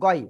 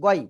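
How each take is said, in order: Both takes have the same delivery.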